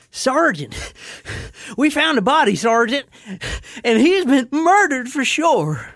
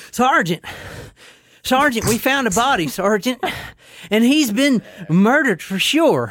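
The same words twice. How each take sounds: First: High, out-of-breath Southern soldier; Southern accent. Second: Breathless, badly faked Australian soldier; high-pitched, winded attempt at an Australian accent. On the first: Acted. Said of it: "Just go with Southern". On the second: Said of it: "gonna try my Australian one".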